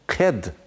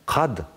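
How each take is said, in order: First: The word starts with a soft front consonant. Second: The word starts with a thick back consonant. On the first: The speaker calls it wrong. "ked şeklinde okunmaz" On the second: The speaker calls it right. "şeklinde telaffuz edilir"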